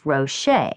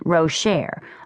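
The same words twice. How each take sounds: First: The name is said in a fancy, refined way. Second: The name is said in a plain, ordinary way. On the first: She is putting on airs. "when Rocher is being fancy, she calls herself Rocher" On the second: This is how most people say it. "most people pronounce it Rocher"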